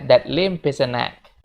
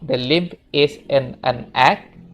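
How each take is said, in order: First: The words run together, linked smoothly. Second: Each word is said separately, not linked. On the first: "dia ngomongnya nyambung ya guys" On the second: "dia bukan ngomong"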